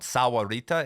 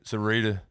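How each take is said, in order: First: The name is said with four syllables. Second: The name is said with three syllables. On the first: The speaker calls it right. "I used to live in a town called Sahuarita" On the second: The speaker calls it wrong. "do you want me to literally miss a syllable?"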